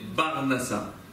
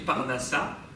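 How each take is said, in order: First: The word begins with a B sound. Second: The word begins with a P sound. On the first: It imitates an Arabic speaker who lacks the P sound. The speaker calls it wrong. "Mais Barnassa" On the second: It is the standard form. The speaker calls it right. "On ne va pas vous dire Parnassa"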